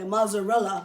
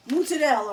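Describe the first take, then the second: First: Mozzarella the way Americans say it; American pronunciation. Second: Mozzarella said the Italian way, with a "ts" sound for the zz and a rolled r; Italian pronunciation. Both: Shown as a demonstration. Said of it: "however you Americans say mozzarella".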